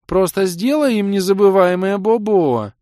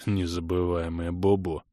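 First: Put-on high, loud baby-talk whine; pouting sweetheart. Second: Low, muffled amused repeat; snorting echo. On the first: Girl urging her lover to hurt them, high pouting squeal. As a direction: squeal it like a spoiled darling. Pouting girlfriend demands punishment. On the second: Kray mocking the girl's baby talk, low snorting echo. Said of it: "хрюкнул Крей". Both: A narrator's reading.

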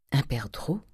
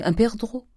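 First: Hushed private musing; said to herself. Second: High-pitched, casual dandy request; pampered young man, pitched up; airy dandy. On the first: A narrator's reading. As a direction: say UN PERDREAU quietly to yourself. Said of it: "se disait Eugénie". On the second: Acted. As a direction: toss out UN PERDREAU in a high, airy voice. Dandy airily naming his wish.

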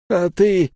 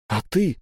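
First: High, exaggerated echo of the question; mocking mimicry. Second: Said in the usual way. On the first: A narrator's reading. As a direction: parrot it back teasingly. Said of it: "передразнил меня воин".

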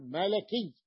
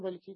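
First: ملكي drawn out with a after the l, "malaki"; middle fatha. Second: ملكي said with i after the l, "maliki"; wrong vowel. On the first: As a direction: open the l of ملكي to a slow a. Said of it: "تقول ملكي". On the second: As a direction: put a kasra on the l of ملكي. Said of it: "لا تقول ملكي". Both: Shown as a demonstration.

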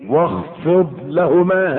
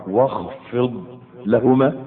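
First: Slow, drawn-out recitation of واخفض لهما. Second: Very slow, rising واخفض لهما; drawn out. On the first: Preacher slowly reciting the verse to the congregation, drawn out. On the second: Preacher re-reciting the verse slowly, rising. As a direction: draw out واخفض لهما, lifting on لهما. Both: Shown as a demonstration. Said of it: "ها؟".

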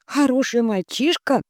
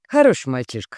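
First: Incredulous. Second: Said in the usual way. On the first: A narrator's reading. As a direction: echo хороший as an unbelieving question. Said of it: "мои брови не выдержали". (недоверчиво: хороший?)

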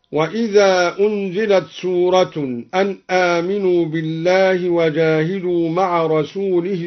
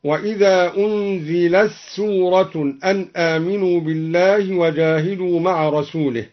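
First: Said in the usual way. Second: "أنزلت سورة" as unzilas-soorah; ta merged into sin. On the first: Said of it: "أدغم تاء التأنيث في السين". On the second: Shown as a demonstration. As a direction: recite "أنزلت سورة" with t lost in a doubled s. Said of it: "أدغم تاء التأنيث في السين هكذا". (إدغام تاء "أنزلت" في سين "سورة")

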